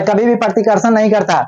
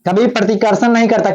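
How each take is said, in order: First: भी pressed firmly with a falling tune; stress on भी. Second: Said in the usual way. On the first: Shown as a demonstration. Teacher drilling the class, stress on भी. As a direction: lean on भी to insist it never happens.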